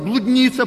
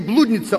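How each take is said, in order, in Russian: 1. Ударение на втором слоге. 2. Ударение на первом слоге. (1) "а блудница, правильно" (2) "Не блудница"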